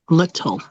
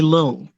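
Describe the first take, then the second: First: The t in the middle is crisp. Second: The t in the middle is softened. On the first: The speaker calls it right. "I want you to say little, enunciate" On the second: The speaker calls it wrong. "don't say little"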